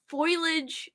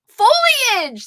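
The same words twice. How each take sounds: First: Foliage said as foil-ij, two syllables; foil-ij pronunciation. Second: Foliage said foh-lee-ij, three syllables, loud; foh-lee-ij pronunciation. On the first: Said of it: "am I saying it the same way". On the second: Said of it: "That's it". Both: Shown as a demonstration.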